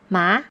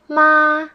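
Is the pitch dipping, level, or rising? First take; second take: rising; level. First: The pitch starts mid and rises high. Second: The pitch stays high and level. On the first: The word means hump. "This is how the second tone sounds" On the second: The word means mother. "the first tone is the flat tone"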